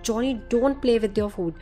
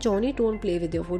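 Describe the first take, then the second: First: It is said very angrily. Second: It is said calmly, without emotion.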